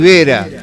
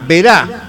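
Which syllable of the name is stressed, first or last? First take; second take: first; last. First: The stress is on the first syllable. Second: The stress is on the last syllable. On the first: The speaker calls it wrong. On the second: The speaker calls it right.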